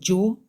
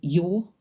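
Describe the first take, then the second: First: The word begins with a j sound. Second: The word begins with a y sound. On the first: "sounds like Joe" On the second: "Sometimes it sounds like yo"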